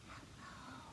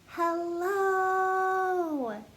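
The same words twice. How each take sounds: First: It is said very quietly. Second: It is said very loudly.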